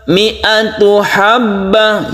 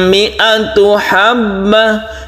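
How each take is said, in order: The two takes are said the same way.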